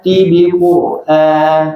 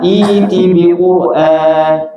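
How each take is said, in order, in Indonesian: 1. Langsung dimulai dengan bunyi t. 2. Dimulai dengan vokal i panjang. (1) "kalau wasal" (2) "kalau mulai dari iti gimana bacanya?"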